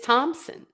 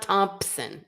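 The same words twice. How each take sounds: First: The name is said without a p sound. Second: The name is said with a p sound. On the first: The speaker calls it right. "It's Thompson" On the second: The speaker calls it wrong. "It's not Thompson"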